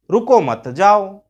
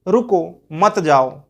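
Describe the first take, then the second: First: "रुको मत जाओ" with weight on "रुको" and a little louder; the other reading. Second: "रुको मत जाओ" slowly, with weight on "मत"; pause shows the meaning. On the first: Teacher contrasting the second reading for students, stress on the first word. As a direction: hit "रुको" first so it reads as stop, don't go. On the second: Teacher showing students one reading of the same words, slow and stressed. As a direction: lean on "मत" so it reads as don't stop, go. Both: Shown as a demonstration. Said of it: "देखिए कितना difference है".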